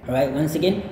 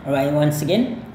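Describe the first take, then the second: No difference in how they are said.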